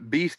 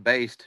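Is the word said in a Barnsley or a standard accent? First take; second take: standard; Barnsley. First: The word is said in a standard accent. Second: The word is said in a Barnsley accent.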